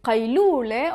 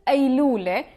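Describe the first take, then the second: First: The word begins with a deep q sound. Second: The word begins with a glottal stop. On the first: "you could hear it قيلولة" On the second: "they don't pronounce it ق, they pronounce it a"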